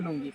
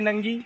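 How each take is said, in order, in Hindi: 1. पहला स्वर एक छोटा 'oo' ध्वनि है। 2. पहला स्वर एक छोटा 'uh' ध्वनि है। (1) "बंगाली में उच्चारण करूँ तो नुंगी" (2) "हिंदी में नंगी"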